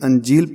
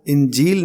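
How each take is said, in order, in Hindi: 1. पहला स्वर एक छोटी 'a' ध्वनि है। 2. पहला स्वर एक छोटी 'i' ध्वनि है। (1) "बल्कि अंजील पढ़ रहे हैं" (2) "इसको इंजील नहीं"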